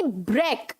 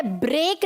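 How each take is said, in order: First: ब्रेक as short low "brek"; correct pronunciation. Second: ब्रेक as long "brayk"; wrong pronunciation. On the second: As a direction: stretch the vowel of ब्रेक to "ay". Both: Shown as a demonstration. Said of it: "ब्रेक नहीं".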